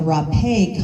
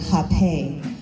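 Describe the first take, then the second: First: The word begins with an r sound. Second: The word begins with an h sound. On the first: This is the Spanish way of saying it. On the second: This is the Portuguese way of saying it.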